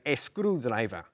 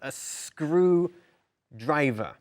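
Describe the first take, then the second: First: The S sound is not emphasized. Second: The S sound is clearly emphasized. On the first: The speaker calls it wrong. "We don't say a screwdriver" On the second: The speaker calls it right. "You need to emphasize that S sound"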